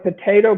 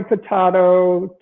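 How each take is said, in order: First: Potato with a long "ay", po-TAY-to; usual potato. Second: Potato with a broad "ah", po-TAH-to; alternate potato. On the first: Lawyer likening two pronunciations, potato as po-TAY-to. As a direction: say potato the everyday American way, po-TAY-to. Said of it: "It's like potato". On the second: Lawyer likening two pronunciations, potato as po-TAH-to. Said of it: "It's like potato, potato". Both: Shown as a demonstration.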